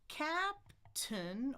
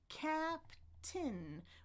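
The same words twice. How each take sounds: First: The second syllable has a schwa vowel. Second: The second syllable has a short i vowel. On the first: "One is the schwa, uh, uh, tun" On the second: "One is the short I, I, I, tin"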